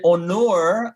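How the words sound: The name is said with a Turkish pronunciation. "That's like the Turkish way to say it"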